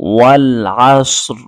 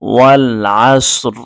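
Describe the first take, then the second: First: The phrase ends on a bare consonant. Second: The same.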